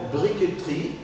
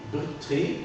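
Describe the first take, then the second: First: Briqueterie as "bri-que-te-rie", E sounded; mute E kept. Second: Briqueterie squeezed to "brik-tri"; mute E dropped. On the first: Teacher shows student the difficult briqueterie, E articulated. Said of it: "je peux la, la, garder l'articulation". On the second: Teacher shows student briqueterie with the E eliminated, "brik-tri". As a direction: drop the E of briqueterie, consonants running together. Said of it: "je pourrais éliminer". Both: Shown as a demonstration.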